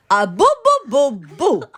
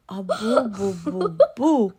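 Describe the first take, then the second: First: Put-on high, very loud baby boos; scolding baby. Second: Put-on monster echoing baby. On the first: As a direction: belt out each boo as a baby's order. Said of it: "And the baby says". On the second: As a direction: echo the boos less forcefully, as the monster. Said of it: "And the monster's".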